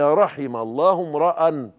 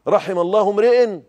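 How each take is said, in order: First: The last word ends with an 'a' vowel. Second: The last word ends with an 'i' vowel. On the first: The speaker calls it right. "هي رحم الله امرأ لانه مفعول به" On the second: The speaker calls it wrong. "انت جريتها ليه؟"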